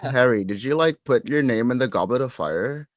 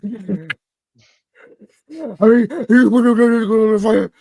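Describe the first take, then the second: First: It is said in a calm tone. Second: It is said in an agitated tone.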